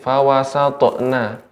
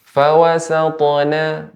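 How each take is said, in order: First: The consonant is cut with a glottal stop. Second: The consonant is released with a bounce. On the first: The speaker calls it wrong. "terdengar ada sedikit fawasatna ... tidak ada hamzahnya" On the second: The speaker calls it right. "cukup dipantulkan tanpa ada hamzahnya"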